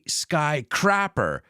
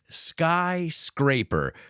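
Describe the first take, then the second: First: The second part is said as crapper, without S. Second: The second part is said as scraper, with S. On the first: It sounds like a crude word for someone who defecates. The speaker calls it wrong. "don't say skycrapper, cagador de cielos" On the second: Something that scrapes the sky. The speaker calls it right. "It's skyscraper, coming from the verb to scrape"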